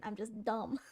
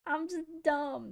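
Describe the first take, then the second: First: Said in the usual way. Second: Laughing. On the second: Real, not acted. Laughing self-mockery after plain take.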